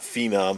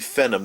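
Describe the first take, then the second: First: Every syllable carries equal heavy stress. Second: Only one syllable carries the stress. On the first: The speaker calls it wrong. "accenting every syllable" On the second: The speaker calls it right. "I think it's supposed to be Phenom"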